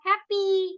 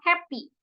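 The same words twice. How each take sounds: First: The final vowel is drawn out long. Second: The final vowel is kept short. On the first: The speaker calls it wrong. "kita nggak bilang happy" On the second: The speaker calls it right. "i-nya nggak panjang, gitu, cuman happy"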